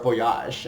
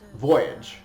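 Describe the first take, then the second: First: It is said with a French pronunciation. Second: It is said with an English pronunciation.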